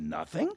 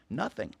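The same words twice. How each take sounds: First: NOTHING as a question, rising and higher; incredulous echo. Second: NOTHING as a flat statement, falling at the end; casual statement. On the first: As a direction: echo "Nothing" back in disbelief, pitch climbing. Retells his surprised echo. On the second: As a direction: say "Nothing" as a settled answer. Retells her casual answer. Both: Retold or imitated.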